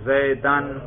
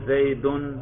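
First: The word ends with the sound -an. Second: The word ends with the sound -un. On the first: The word is the object of the verb. "دیکھا رفع نصب جر" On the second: The word is the subject of the sentence. "دیکھا رفع نصب جر"

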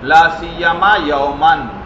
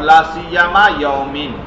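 First: The last word ends in an -an sound. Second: The last word ends in an -in sound. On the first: The word is in the accusative case. "نصب بھی" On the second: The word is in the genitive case. "جر بھی"

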